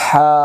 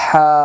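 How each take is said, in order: Both takes have the same delivery.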